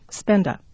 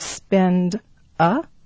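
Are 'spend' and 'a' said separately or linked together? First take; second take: linked; separate. First: The final d links into the vowel. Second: The two words are said separately. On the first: "we will get spend a" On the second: "instead of spend a"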